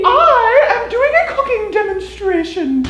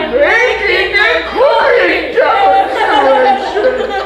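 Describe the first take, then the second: First: It is said in a normal voice. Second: It is said like a movie villain.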